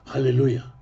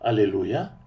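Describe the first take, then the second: First: The word starts with a harsh kh sound. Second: The word starts directly with a vowel. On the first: The speaker calls it wrong. "на еврейский лад сказать «халлилуй»" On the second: The speaker calls it right. "говорить по-русски «аллилуйя»"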